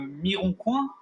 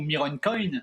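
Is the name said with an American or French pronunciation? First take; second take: French; American. First: The name is said with French pronunciation. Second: The name is said with American pronunciation.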